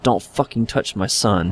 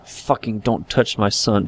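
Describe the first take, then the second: First: Slow, soft seething warning; quiet menace. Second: Slow, soft menacing threat; quiet menace. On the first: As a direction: grind it out slowly and quietly. Repeated threat. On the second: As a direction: hold the fury down, slow and quiet. Threat heard over the child. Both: Acted.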